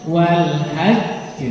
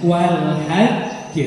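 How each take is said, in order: Both takes have the same delivery.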